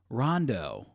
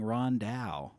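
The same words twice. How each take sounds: First: The name is pronounced the plain English way. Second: The name is pronounced the French way. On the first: The speaker calls it right. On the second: The speaker calls it wrong.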